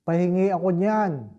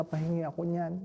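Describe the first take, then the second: First: A firmer, louder second ask with the stress on niyan; old priest asks again louder at the dinner table; louder request. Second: Mild, murmured request for the forbidden food; quiet request. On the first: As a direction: repeat the request louder because nobody answered. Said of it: "Kunwari, bingi yung mga formator". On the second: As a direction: ask for it quietly at the table, almost to himself. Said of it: "sabi niya". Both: Retold or imitated.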